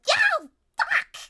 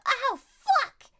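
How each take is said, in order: First: Shrill high yelp of pain; sharp yell. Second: High loud yelp of pain; sharp yell. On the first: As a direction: yelp like your fingers got snapped. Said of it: "you sharply yell". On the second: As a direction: cry out as the trap bites. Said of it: "You sharply yell". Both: Retold or imitated.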